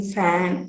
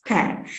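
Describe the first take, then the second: First: Said in the usual way. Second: "pan" as the variant of fan; p replacing f. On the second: Shown as a demonstration. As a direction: swap the f for a p, "pan". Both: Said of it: "pronouncing fan as pan".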